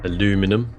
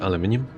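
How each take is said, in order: First: It is said with an American pronunciation. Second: It is said with a British pronunciation.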